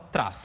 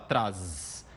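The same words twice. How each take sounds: First: The word ends with a hissing s sound. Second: The word ends with a buzzing z sound. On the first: The speaker calls it right. "você fala traz" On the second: The speaker calls it wrong. "Você não fala traz"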